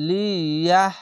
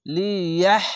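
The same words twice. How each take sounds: First: লিয়াহ with a harsh, rough হ; wrong pronunciation. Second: লিয়াহ with a breathy throat হ at the end; correct pronunciation. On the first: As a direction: say লিয়াহ the mistaken way, hard হ. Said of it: "এইভাবে নয়". (ভুল উচ্চারণে লিয়াহ) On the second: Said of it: "এইভাবে উচ্চারণ করতে হবে". (সঠিক উচ্চারণে লিয়াহ) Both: Shown as a demonstration.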